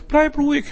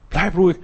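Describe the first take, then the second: First: "Bleib ruhig" said much higher, like a sharp reminder; high call to calm. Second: Said in the usual way. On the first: Shown as a demonstration. Preacher telling himself to stay calm, pitched high. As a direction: lift the pitch on "Bleib ruhig" to jolt the listener.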